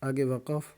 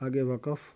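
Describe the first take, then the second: The two takes are said the same way.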